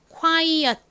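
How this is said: It is said with Korean-style syllables and vowels. "한국식으로는 quiet 혹은 quiet 이라고 발음하는"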